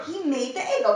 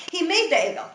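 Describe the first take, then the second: First: Egel stressed, falling tune. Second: Made stressed, higher. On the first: Teacher naming what Aaron made, stress on Egel. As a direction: lean on the word Egel. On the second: Teacher blaming Aaron for making it, stress on made. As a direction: hit the word made. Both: Shown as a demonstration. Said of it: "That's what we're blaming him for".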